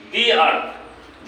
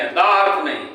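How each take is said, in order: First: "दी earth" slowly, with a long "दी"; "दी" held long before "earth". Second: "द earth" with a short "द"; the wrong short form; "द" cut short before "earth". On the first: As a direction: stretch the "दी". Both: Shown as a demonstration.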